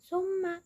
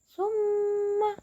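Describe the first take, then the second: First: The nasal m is short and not held. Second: The nasal m is held for two beats. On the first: The speaker calls it wrong. "Bukan summa" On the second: The speaker calls it right. "tapi summa. Ditahan dua harokat"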